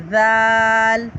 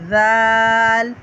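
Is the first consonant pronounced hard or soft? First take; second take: soft; soft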